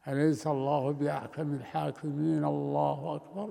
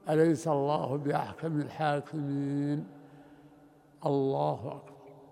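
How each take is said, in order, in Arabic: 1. يتصل التكبير بالتلاوة بلا وقفة. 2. توجد وقفة قصيرة قبل التكبير. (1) "لا يصل التكبير بالقراءة" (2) "يقف هنا وقفة قصيرة جدا"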